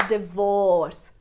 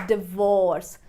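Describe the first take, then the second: The two takes are said the same way.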